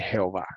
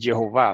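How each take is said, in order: First: The name is said with Spanish pronunciation. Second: The name is said with English pronunciation. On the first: The speaker calls it right. "se dice Jehová" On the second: The speaker calls it wrong. "en español no se dice Jehová"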